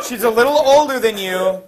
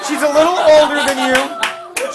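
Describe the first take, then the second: First: Said in the usual way. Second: High, loud line through a laugh; laughing pitch. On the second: Retold or imitated. Townsfolk offering Oedipus the older queen, laughing. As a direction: sell it while cracking up.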